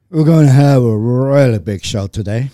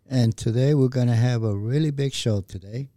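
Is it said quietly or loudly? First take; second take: loudly; quietly. First: It is said loudly, with more energy. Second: It is said meekly and quietly.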